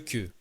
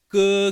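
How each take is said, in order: First: It is said with the French sound. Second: It is said with the Chinese sound. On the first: The speaker calls it wrong. "c'est pas" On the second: The speaker calls it right. "Ça, c'est en chinois"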